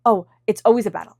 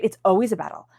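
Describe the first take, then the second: First: Louder, put-upon sigh of a line; mock the tired grumble of someone always fighting; weary complaint. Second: Said in the usual way. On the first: Voicing a worn-out complainer, mildly exasperated. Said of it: "not feeling like".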